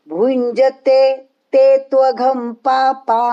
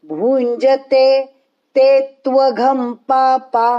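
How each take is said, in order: Both takes have the same delivery.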